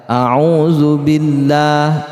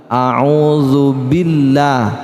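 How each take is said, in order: The two takes are said the same way.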